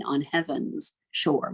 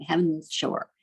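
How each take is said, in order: First: Said in the usual way. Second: "heaven's" clipped to one syllable, heav'ns; contracted syllable. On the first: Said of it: "instead of singing". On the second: Shown as a demonstration. Teacher showing how we sing it, "heaven's" contracted to one syllable. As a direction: drop the second vowel of "heaven's". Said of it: "to get rid of one extra syllable".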